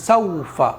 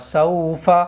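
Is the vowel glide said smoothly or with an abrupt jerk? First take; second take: abrupt jerk; smoothly. First: The glide is said with an abrupt jerk. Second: The glide is said softly and smoothly. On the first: The speaker calls it wrong. "झटके के साथ में पढ़ा जाए तो हम पढ़ेंगे सौफा, इस तरह से झटका नहीं लगाएंगे" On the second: The speaker calls it right. "नरमी से पढ़ेंगे, बहुत सॉफ्टली पढ़ना है"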